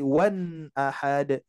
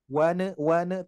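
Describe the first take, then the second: First: WAN held on the n, then straight into AHAD; slow "wan ahad" with a clear n. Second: WAN cut short with a loose n; released n. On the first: ("wan ahad" dengan nun jelas dan bersambung) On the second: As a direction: say "wan" with the n let go. ("wan" dengan nun dilepas pendek) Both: Shown as a demonstration. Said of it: "tapi wan ahad".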